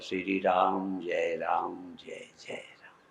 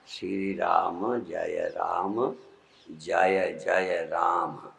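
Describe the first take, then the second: First: Ram ends on the consonant m, no final vowel. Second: Ram ends with a short a vowel after m. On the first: This is the habitual way learned in childhood. "अभ्यास पड़ा है तो जानते हुए मैं ऐसे ही बोलता हूं" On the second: This follows the grammatical form of the word. "ऐसे बोलना चाहिए"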